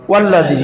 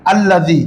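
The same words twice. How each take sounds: First: ওয়াল্লাযী joined, with the hamza of আল্লাযী silent; hamza dropped. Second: আল্লাযী said on its own with the opening hamza sounded; hamza pronounced. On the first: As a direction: run ওয়া straight into ল্লাযী with no hamza. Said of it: "এখন বলো". (হামজা বাদ দিয়ে মিলিয়ে পড়া ওয়াল্লাযী) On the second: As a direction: say আল্লাযী clearly starting with the hamza. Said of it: "যেমন তোমরা বলো". (শুরুতে হামজা উচ্চারণ করে আল্লাযী) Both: Shown as a demonstration.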